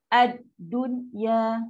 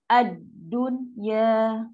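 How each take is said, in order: The two takes are said the same way.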